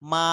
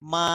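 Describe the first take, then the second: No difference in how they are said.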